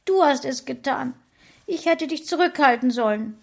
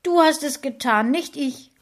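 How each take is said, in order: First: Higher, louder tearful accusation with DU stressed; wife sobbing, blaming husband; sobbing blame. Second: Higher, louder accusing voice on the edge of tears; wife accuses husband near tears, stressing DU. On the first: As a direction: blame him through sobs. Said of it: "schluchzte mein Frauchen". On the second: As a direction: throw the blame at him, close to crying. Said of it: "fast weinend sagen". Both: A narrator's reading.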